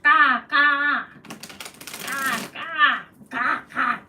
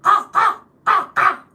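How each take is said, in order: First: Loud cawing like a crow; crow caw imitation. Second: Much higher, very loud crow cawing; shrill it out like a real crow. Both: Shown as a demonstration. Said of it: "Can you do the real sound?".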